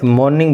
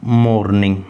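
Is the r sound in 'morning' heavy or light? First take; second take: light; heavy. First: The r sound is soft and barely pronounced. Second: The r sound is clearly and strongly pronounced. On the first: The speaker calls it right. "मॉर्निंग बोला जाता है इसको, आर पे stress नहीं होता" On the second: The speaker calls it wrong. "ये आर pronounce हो गया मेरे से"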